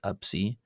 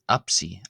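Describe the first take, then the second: First: The letter name is said with a b sound. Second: The letter name is said with a p sound. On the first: "as a B instead of a P" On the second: "this can be pronounced as Apsi"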